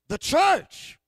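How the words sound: It is said loudly, with strong conviction. The speaker calls it right. "You got to say like you believe in the church"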